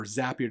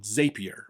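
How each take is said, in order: First: Zapier said ZAP-ee-er; short-A pronunciation. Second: Zapier said ZAY-pee-er; long-A pronunciation. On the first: Offering listeners the alternative, Zapier pronounced ZAP-ee-er. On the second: Naming the tool for listeners, Zapier pronounced ZAY-pee-er. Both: Shown as a demonstration. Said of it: "depending on how you want to pronounce it".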